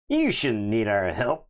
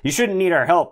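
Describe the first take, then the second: First: It is said in a clearly sneering, mocking tone. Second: It is said in a mild, barely sneering tone. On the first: The speaker calls it right. "let me try that again" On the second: The speaker calls it wrong. "I didn't do a sneery enough voice"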